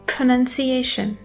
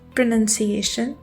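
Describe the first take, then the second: First: The first p has a puff of air. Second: The first p has no puff of air. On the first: The speaker calls it right. "पफ of air के साथ बोलना है" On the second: The speaker calls it wrong. "पी की sound को उर्दू के पे की तरह"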